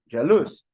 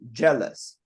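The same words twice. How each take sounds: First: The stress is on the second syllable. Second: The stress is on the first syllable. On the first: The speaker calls it wrong. "if it would be on the second part" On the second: The speaker calls it right. "the stress is on the first part"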